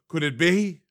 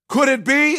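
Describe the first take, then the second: First: Gasp, then a tentative question; first dawning of mock hope; mock wonder. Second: High-pitched, hammed-up amazed question; theatrical rising disbelief; mock excited hope. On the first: Acts out hopeful suspicion of return. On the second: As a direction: let the hope leap way up. Repeats the hopeful question, building.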